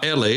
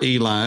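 First: The name is said in its original pronunciation. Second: The name is said in its familiar pronunciation. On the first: "is the way that it would be pronounced, my God" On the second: "as we say"

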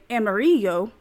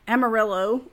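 First: The name is said with a Spanish pronunciation. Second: The name is said with an English pronunciation. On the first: The speaker calls it right. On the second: The speaker calls it wrong.

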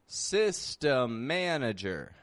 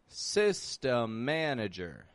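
The two takes are said the same way.

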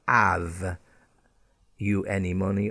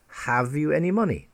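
First: The H in have is dropped. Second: The H in have is pronounced. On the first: The speaker calls it wrong. "It's not have you any money" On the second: The speaker calls it right. "But the correct pronunciation is have"

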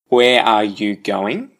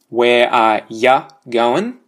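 First: Every word is said in full. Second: 'You' is reduced to 'ya'. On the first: "obviously no change" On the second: "where you and going have been changed to ya going"

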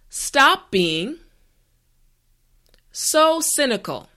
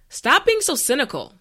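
First: The sentence is said slowly and carefully. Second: The sentence is said at a natural pace. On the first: "this time repeat after me" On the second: "the last time at a regular pace"

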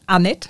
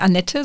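First: The name is pronounced the French way. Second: The name is pronounced the German way. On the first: It is the name of a French woman. The speaker calls it right. "sondern Annette" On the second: It is the name of a German woman. The speaker calls it wrong. "nicht Annette"

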